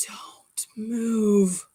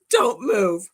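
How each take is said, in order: First: Whispered warning, breath only; urgent whisper. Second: Louder, laughing echo of the warning; mock loud echo. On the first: Retold or imitated. Husband whispering a warning to his wife about the spider. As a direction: hush her so the spider stays put. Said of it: "He goes". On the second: Wife echoing her husband's warning loudly, half-laughing. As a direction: throw the order back with a laugh.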